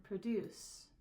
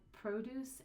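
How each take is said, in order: First: "produce" as pruh-DUCE, second syllable stressed. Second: "produce" as PRO-duce, long O, first syllable stressed. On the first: Teacher shifting stress for meaning, weight on second syllable. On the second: Teacher shifting stress for meaning, weight on first syllable. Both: Shown as a demonstration. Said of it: "the stress of the word".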